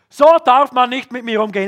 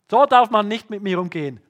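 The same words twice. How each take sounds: First: It sounds angry and combative. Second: It sounds hurt and offended. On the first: The speaker is about to strike back. "Die eine Möglichkeit ist Fight" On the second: The speaker is about to withdraw and give up. "Man zieht sich beleidigt zurück"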